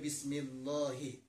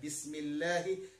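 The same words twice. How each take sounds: First: The l in Allah sounds heavy and thick. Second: The l in Allah sounds light and thin. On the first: The speaker calls it wrong. "tidak boleh" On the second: The speaker calls it right. "harus ditipiskan"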